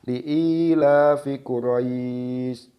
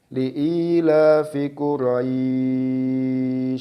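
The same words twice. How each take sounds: First: The long vowel is held for two counts. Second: The long vowel is held for six counts. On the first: "membaca mat lain dengan dua harokat" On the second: "membaca mat lain dengan enam harokat"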